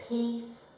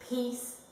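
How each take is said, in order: The two takes are said the same way.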